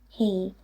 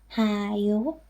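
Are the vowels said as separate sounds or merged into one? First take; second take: merged; separate. First: The two vowels merge into a single vowel sound. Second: The two vowels are said separately, one after another. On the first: The speaker calls it right. "but just he" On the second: The speaker calls it wrong. "will not be pronounced ha you"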